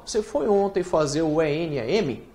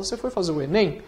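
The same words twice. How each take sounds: First: "E N A M" said as separate letters; wrong way: E N A M spelled out. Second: "enem" said as a single word; right way: enem as one word. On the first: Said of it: "Ninguém fala assim". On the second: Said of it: "Você fala". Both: Shown as a demonstration.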